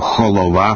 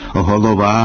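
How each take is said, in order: First: It starts with a harsh kh sound. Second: It starts with a soft fricative h sound. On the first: The speaker calls it wrong. "або «холова»" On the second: The speaker calls it right. "замість «голова»"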